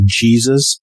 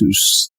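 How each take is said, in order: First: The name is said with English sounds. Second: The name is said with Spanish sounds. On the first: The speaker calls it wrong. "my name's not really Jesus" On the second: The speaker calls it right. "It's actually the way you say it is Jesus"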